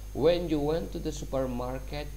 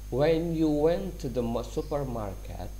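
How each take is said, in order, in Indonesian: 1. Bacaannya dibaca lebih cepat. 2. Bacaannya dibaca lebih lambat.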